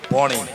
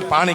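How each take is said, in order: First: It is said in North Gujarati with 'o'. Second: It is said in standard Gujarati with 'aa'.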